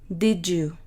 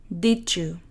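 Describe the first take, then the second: Both takes have the same delivery.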